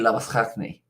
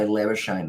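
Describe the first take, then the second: First: The name is said with an Afrikaans pronunciation. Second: The name is said with an anglicized pronunciation. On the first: This is the original pronunciation in the source language. "it's actually Labuschagne in South African or in Afrikaan" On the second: This is how the player says his own name. "when I say Labuschagne, though, even though that's how he says his last name"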